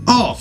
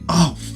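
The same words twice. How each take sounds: First: It sounds pleased and happy. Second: It sounds annoyed and dismayed.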